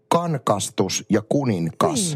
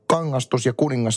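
First: The middle has a hard nk sound. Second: The middle has a soft ng sound. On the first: The speaker calls it wrong. "mulle aina kangastus ja kuningas oli kankastus ja kuninkas" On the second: The speaker calls it right. "Äng-äänne, joka on tuttu esimerkiksi tämmöistä sanoista kuin kangastus, kuningas"

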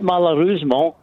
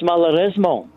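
First: The word is pronounced in an anglicised way. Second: The word is pronounced in a French way. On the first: The speaker calls it wrong. "It's not malheureusement" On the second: The speaker calls it right. "it's malheureusement"

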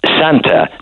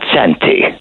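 First: The word ends with an 'ah' sound. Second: The word ends with an 'ee' sound. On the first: The speaker calls it right. "The correct pronunciation is Santa" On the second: The speaker calls it wrong. "not Santy"

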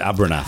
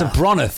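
First: The second syllable sounds like 'er'. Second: The second syllable sounds like 'ro'. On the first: This is how other people said the name. The speaker calls it wrong. "everyone else called it Abernath" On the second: This is how the name's inventor intended it. The speaker calls it right. "it's Abronath, for God's sake. Say it right"

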